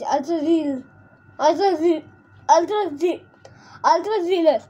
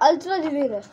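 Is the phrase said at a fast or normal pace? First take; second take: normal; fast. First: The phrase is said at a normal pace. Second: The phrase is said very fast.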